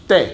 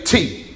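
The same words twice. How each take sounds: First: Spanish "Te" with no puff of air; "Te" said without a burst of breath. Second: English T with a strong puff of air; aspirated T, the way English says it; T with a sharp burst of breath. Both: Shown as a demonstration. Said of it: "Now let's do T in Spanish".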